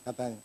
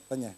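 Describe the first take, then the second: No difference in how they are said.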